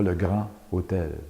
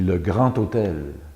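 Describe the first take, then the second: First: Grand and hôtel are said without a liaison. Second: Grand and hôtel are joined with a liaison. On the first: The speaker calls it wrong. "et non pas" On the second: The speaker calls it right. "On dit"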